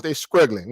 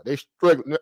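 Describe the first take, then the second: First: Southern "struggling" said with a K, as "skruggling". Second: Said in the usual way. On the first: Shown as a demonstration. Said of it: "in my Southern voice". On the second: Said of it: "they struggling with the K".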